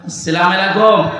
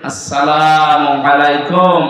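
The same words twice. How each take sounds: First: The greeting is said quickly with sounds blurred together. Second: The greeting is said slowly with every sound clear. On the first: The speaker calls it wrong. "এই সালাম শব্দটা এখনো শুদ্ধ উচ্চারণে হয় না" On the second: The speaker calls it right. "আজকে থেকে ঠিক করে নেবে"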